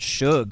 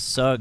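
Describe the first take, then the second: First: The name begins with a sh sound. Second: The name begins with a plain s sound. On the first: The speaker calls it wrong. "been called Shug ... where did that H come from?" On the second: The speaker calls it right. "my last name is Sugg"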